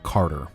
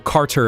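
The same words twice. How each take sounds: First: The middle T sounds soft, like a D. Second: The middle T is sounded clearly and crisply. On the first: "that T would very much be like a D" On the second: "if you're enunciating it a bit clearer"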